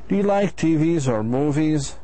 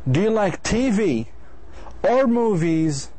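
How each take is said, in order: First: The voice rises at the end. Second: The voice falls at the end. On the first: A yes or no answer is expected. "you're asking what do you like?" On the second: The listener should pick one option. "you're actually asking him to choose either T V or movies"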